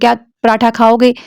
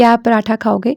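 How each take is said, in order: First: It is asked loudly, almost shouting. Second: It is asked calmly and softly.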